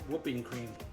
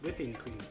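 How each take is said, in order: First: The first word has the vowel of 'shoe'. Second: The first word has the vowel of 'ship'. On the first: The speaker calls it wrong. "I keep saying whooping" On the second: The speaker calls it right. "I said it right this time"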